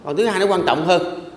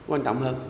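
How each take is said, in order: First: Said in the usual way. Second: Soft echo. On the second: Shown as a demonstration.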